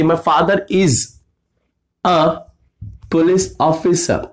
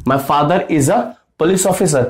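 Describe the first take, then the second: First: Slow, spaced-out delivery; slow dictation. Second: Said in the usual way. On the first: Shown as a demonstration. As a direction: stretch out each word. (धीमे-धीमे खींच कर) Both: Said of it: "अगर लड़की बोल देती कि".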